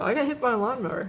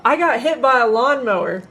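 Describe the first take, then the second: First: Softer, offhand imitation of a boy; retold casual mention. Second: Louder, higher mock yell of a little boy; retold boy's yell. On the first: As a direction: toss it out casually, like it's nothing. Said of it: "He'll just, like, casually mention it". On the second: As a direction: imitate a kid blurting it out to a crowd. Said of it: "This little boy yells out".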